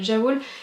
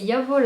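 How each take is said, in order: First: The word begins with a soft 'zh' sound. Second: The word begins with a 'y' sound. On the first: The speaker calls it wrong. "à chaque fois je dis ja, ja, Jawol parce que j'entends partout que c'est de la Jawol" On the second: The speaker calls it right. "mais c'est Yavol hein, comme c'est allemand"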